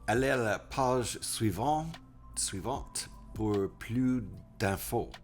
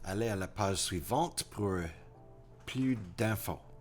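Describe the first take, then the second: First: The sentence is halting, with breaks and a repeat. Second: The sentence flows in one smooth phrase.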